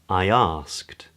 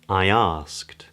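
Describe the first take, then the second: First: A glide sound links the two words. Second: A glide sound links the two words.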